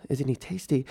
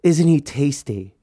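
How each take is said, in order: First: Softer, puzzled echo of "Isn't he tasty?"; quiet disbelief at what she just said; baffled repeat. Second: Slow, drawn-out swooning "Isn't he tasty?"; mock-dreamy sister gushing over her brother; imitating Farah admiring. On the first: Retold or imitated. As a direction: repeat "Isn't he tasty?" as if you can't believe it. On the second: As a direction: savour "tasty" like she's drooling over him. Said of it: "she goes".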